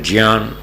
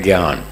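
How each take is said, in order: First: It is said with the Sanskrit pronunciation. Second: It is said with the North Indian pronunciation. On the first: "Sanskrit में इसका शुद्ध उच्चारण है" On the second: "उत्तर भारत में इसका उच्चारण है"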